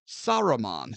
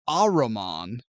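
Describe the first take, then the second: First: The name begins with an S sound. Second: The name begins with a vowel, no S. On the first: "Sometimes he's pronounced Saruman" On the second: "They just drop the S"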